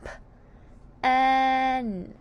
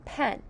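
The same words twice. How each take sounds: First: "P-N": puffed p, then a long held "en"; "P-N" slowly, sound by sound. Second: Said in the usual way. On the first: Shown as a demonstration. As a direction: pop the "P", pause, stretch out the "N" part. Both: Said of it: "Sound pen".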